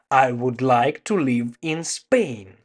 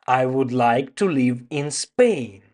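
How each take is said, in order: Both takes have the same delivery.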